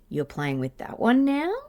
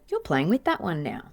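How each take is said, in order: First: The pitch rises at the end like a question. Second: The pitch falls at the end like a statement. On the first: It sounds like asking a question. The speaker calls it wrong. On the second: It sounds like a plain observation. The speaker calls it right.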